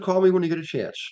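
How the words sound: The voice falls at the end. The speaker calls it wrong. "I tend to um, tone down at the end of the sentence"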